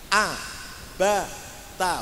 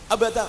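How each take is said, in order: First: The syllables are short at an even pace. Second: The syllables are run together very quickly. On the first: The speaker calls it right. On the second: The speaker calls it wrong. "tidak boleh terlalu cepat"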